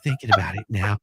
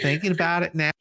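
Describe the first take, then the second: First: It is read in a husky, breathy voice. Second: It is read in a plain, ordinary voice.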